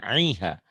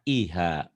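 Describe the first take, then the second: First: The vowel starts with a tight throaty 'ain'. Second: The vowel starts with a light glottal stop. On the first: The speaker calls it wrong. "jangan aiha" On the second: The speaker calls it right. "Jangan ain ya, hamzah"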